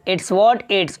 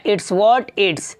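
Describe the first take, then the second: Both takes have the same delivery.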